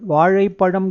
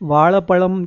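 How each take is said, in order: First: It is said with the retroflex zh sound. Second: It is said with an l sound instead.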